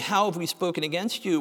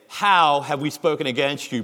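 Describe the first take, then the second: First: It is said in a whiny, pleading tone. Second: It is said in a defiant, challenging tone.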